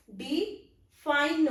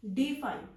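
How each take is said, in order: First: define slowly, light डि, pause, stressed fine; define as two beats, weak then strong; stress on second syllable. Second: Said in the usual way. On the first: Shown as a demonstration. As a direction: punch the fine in define after an unstressed डि. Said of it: "पहला थोड़ा unstressed है". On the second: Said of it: "जैसे word है हमारा".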